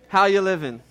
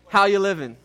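First: It is said with swagger and attitude. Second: The same.

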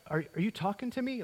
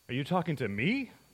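First: It sounds groggy and half awake. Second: It sounds indignant and mocking.

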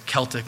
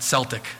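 First: The word begins with a hard K sound. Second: The word begins with a soft S sound. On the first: The speaker calls it right. "it's Celtic" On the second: The speaker calls it wrong. "not Celtic. I don't know why the Boston Celtics changed it"

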